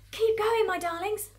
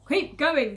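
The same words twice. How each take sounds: First: High, loud urging with little real panting; urgent panted encouragement. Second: Loud, forceful order, moderately raised pitch; farmer's shout. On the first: Mister Fox to his fleeing family, urgent encouragement. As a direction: urge loved ones on, pitched high. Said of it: "panted Mister Fox". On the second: Fat farmer Boggis to Bunce and Bean, shouting. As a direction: shout it to the workers as a command. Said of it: "the fat boggis shouted". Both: Acted.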